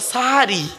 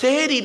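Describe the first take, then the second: First: The first vowel is an a sound. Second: The first vowel is an e sound. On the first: It means the pre-dawn meal. The speaker calls it right. "ওটা সাহারি... দন্তেশ্বয় আকার" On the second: It means doing magic. The speaker calls it wrong. "ওটা সেহেরি নয়... দন্তেশ্বয় একার নয়"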